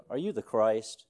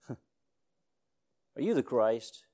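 First: Said in the usual way. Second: Slow drawn-out question. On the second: Retold or imitated. Preacher mimicking the crowd, slow and drawn out. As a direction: stretch each word out, wondering aloud. Drawn-out repeat after laugh.

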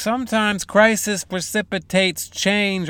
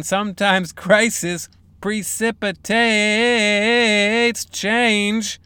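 First: Said in the usual way. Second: Slow dramatic reread. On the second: Shown as a demonstration. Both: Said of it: "Let's hear that again".

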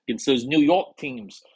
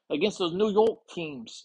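First: Said in the usual way. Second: High-pitched mock New York accent; attempted New York accent. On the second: Host playfully tests an accent on team names, mock New York accent. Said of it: "Is that a New York accent?".

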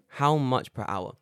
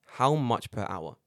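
No difference in how they are said.

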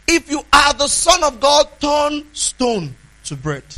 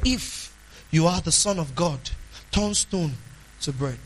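First: Louder, higher taunt that slows down at the end; devil's loud challenge. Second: Softer, lower, insinuating tone that fades away; sly doubting devil. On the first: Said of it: "But when the devil speaks, he says". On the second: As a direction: plant doubt quietly, like the serpent. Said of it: "That's the way the devil talks". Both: Retold or imitated.

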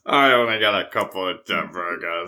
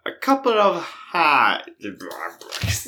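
First: Low-pitched mock French accent; Steve Martin. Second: Slow, whispery mock French accent; Steve Martin. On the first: Recalling Pink Panther, low bad French accent. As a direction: imitate a comic film Frenchman, pitched down. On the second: Answering in the airport scene, slow hammed-up French accent. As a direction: drag out the mangled French-accented words. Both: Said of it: "Pink Panther with Steve Martin".

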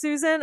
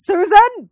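First: Said in the usual way. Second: Much higher and louder screamed name; mock scream. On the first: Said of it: "there is a part she says". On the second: Ghost in the tube screaming back at her, mock scream. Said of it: "I think it screams".

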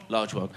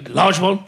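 First: Low, soft answering voice; mock Tommy answering softly; other of two parts. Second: Asking voice, a touch higher; mock Dennis asking; one of two parts. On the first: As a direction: drop the voice for the other half. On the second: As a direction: play one side of a two-man scene. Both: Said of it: "played the two parts".

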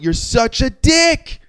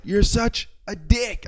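First: High, slow, laughing insult; laughing disbelief. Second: Repeated taunt. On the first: Narrator laughing at the rude truck driver, high and slow. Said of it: "I was laughing". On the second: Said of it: "I just kept going like". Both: Retold or imitated.

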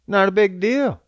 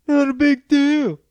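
First: Said in the usual way. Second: Much higher, mocking echo; a squeaky put-on retort. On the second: Shown as a demonstration. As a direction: pitch it way up like a taunt. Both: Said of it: "repeats it in another voice".

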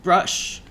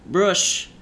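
First: "Brush" repeated higher and louder, flat ending; firm correction. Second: "Brush" said higher and louder with a rising tune; correcting. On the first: Driver repeating his correction, insistent. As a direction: insist on "Brush" once more. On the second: Driver correcting the passenger's word, firmly. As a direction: stress the "Brush" as a firm correction. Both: A narrator's reading. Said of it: "he corrected".

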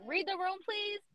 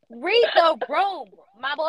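First: Small, high-pitched exasperated plea; pleading aside. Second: Slow, high, emphatic scolding; exasperated plea. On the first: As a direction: READ THE ROOM high and soft. Repeats plea more softly. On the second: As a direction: READ THE ROOM drawn out, loud and high. Mock plea to absent man. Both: Acted.

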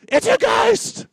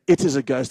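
First: Very high, loud, slow scream of fright; panicked shriek. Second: Said in the usual way. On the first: Shown as a demonstration. Pastor showing how the disciples really said it, panicked shriek. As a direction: shriek it like you've seen a ghost. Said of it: "They would say". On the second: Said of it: "I don't think they would say".

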